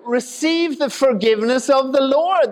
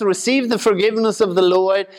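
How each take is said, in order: First: High-pitched Southern revival preacher; southern accent. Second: Said in the usual way. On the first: Acted. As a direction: call it out in a put-on southern accent. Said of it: "'cause he has a southern accent".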